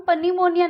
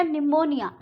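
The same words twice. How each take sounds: First: पनीमोनिया said with an initial P sounded; पनीमोनिया as puh-nee-monia; mispronunciation demo. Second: निमोनिया begun on N, P silent; निमोनिया as ni-monia; correct pronunciation demo. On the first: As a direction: wrongly start पनीमोनिया with puh. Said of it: "नहीं बोलेंगे". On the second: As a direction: say निमोनिया without any P. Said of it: "पी silent". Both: Shown as a demonstration.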